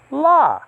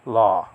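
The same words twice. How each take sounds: First: LA pitched up high, then falling; accented syllable. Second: LAW kept low and level; unaccented syllable. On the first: Teacher showing students an acute accent, LA pitched high. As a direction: lift the pitch sharply on LA. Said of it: "you're to pronounce this". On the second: Teacher showing what not to say, LAW left low. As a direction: say LAW without any lift in pitch. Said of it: "and not law". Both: Shown as a demonstration.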